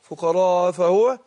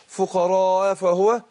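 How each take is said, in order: First: The glottal stop before fahuwa is dropped. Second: The glottal stop before fahuwa is dropped.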